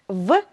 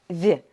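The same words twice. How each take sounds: First: The consonant is hard, not palatalized. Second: The consonant is soft, palatalized.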